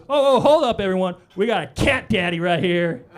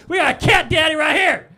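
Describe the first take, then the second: First: Mock security guard shout. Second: High, loud shouted announcement; imitated guard shout. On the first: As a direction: call it out like a proud guard. Security guard calls out to crowd. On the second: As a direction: bellow it across the line like a guard. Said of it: "And he goes".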